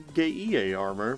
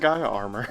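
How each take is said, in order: First: The name is pronounced like 'Geie'. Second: The name is pronounced like 'Gaia'.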